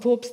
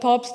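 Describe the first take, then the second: First: The vowel is a dark 'o' sound. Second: The vowel is a clear open 'a' sound.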